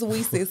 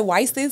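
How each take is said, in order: First: The first syllable sounds like "we". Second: The first syllable sounds like "why". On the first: The speaker calls it right. "but it's it's We Sis, like We Sisters" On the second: The speaker calls it wrong.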